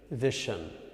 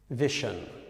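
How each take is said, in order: Both takes have the same delivery.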